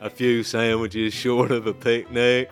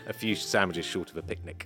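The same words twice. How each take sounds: First: It is said in a Forrest Gump impression. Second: It is said in the speaker's normal voice.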